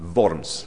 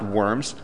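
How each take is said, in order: First: It begins with a v sound, like German. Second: It begins with a w sound, like English. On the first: The speaker calls it right. "Worms, okay, just for the record" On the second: The speaker calls it wrong. "not worms"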